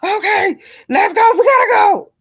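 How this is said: It is said in a hurried, frantic tone.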